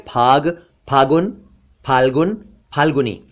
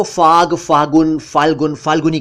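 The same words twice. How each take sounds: First: फाग, फागुन, फाल्गुन, फाल्गुनी with p plus breath; aspirated ph. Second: फाग, फागुन, फाल्गुन, फाल्गुनी with f; mispronounced ph as f. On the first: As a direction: pop the lips from फाग to फाल्गुनी. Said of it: "बोलना चाहिए". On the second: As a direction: hiss an f starting फाग to फाल्गुनी. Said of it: "जो कि बिल्कुल गलत है". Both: Shown as a demonstration.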